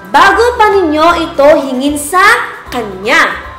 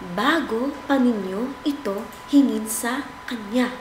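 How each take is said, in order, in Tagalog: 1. Malakas na boses. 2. Mahinang boses. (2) "Mahinang boses"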